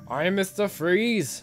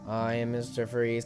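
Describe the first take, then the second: First: A deep action-hero voice with an Austrian accent. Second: A cold, robotic, technological-sounding voice. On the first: The speaker calls it wrong. "the Arnold Schwarzenegger kind of voice" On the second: The speaker calls it right. "techno, technological voice"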